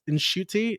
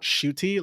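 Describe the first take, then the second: First: The name starts with a soft N sound. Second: The name starts directly with a sh sound. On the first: The speaker calls it right. "softly pronounce the N ... you hear a little slight N" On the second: The speaker calls it wrong. "It's not shooty like you keep saying"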